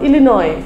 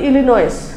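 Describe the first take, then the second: First: The word ends without an 's' sound. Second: The word ends with an 's' sound. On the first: The speaker calls it right. "স্টেটের নাম ইলিনয়" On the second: The speaker calls it wrong. "না জানার কারণে অনেকে বলতে পারে"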